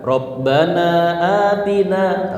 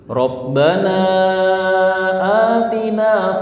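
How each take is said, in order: First: The long vowel is held only briefly. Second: The long vowel is stretched out. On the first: It does not follow the recitation rules. "Tapi kita baca dua rakaat" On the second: It follows the recitation rules. "kalau kita ikutin tajwidnya kan mat apa? Mad jaiz"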